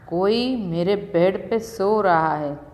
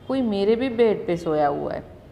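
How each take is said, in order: First: It is said in a big, gruff voice. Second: It is said in a tiny little voice.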